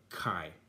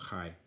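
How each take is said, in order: First: The letter name is said with stronger Greek sound. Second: The letter name is said the Greek way. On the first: "kai would be even stronger" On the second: "the Greeks is more chi"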